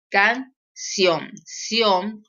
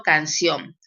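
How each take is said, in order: First: Canción split slowly into can and ción; Can-ción, spelled by syllable; syllable demo. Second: Said in the usual way. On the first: Shown as a demonstration. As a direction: separate Canción, then repeat ción alone. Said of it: "esa sílaba". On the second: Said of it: "Por ejemplo".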